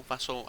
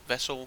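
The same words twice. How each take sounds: First: "vassal" with an A as in "cat"; pronounced "vassal". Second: "vessel" with an E as in "bed"; pronounced "vessel". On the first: Gamer unsure how to pronounce the creature's title, offering "vassal" with an A. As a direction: say "vassal", first vowel like "cat". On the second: Gamer unsure how to pronounce the creature's title, offering "vessel" with an E. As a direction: say "vessel", first vowel like "bed". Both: Shown as a demonstration. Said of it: "however you wanna pronounce that".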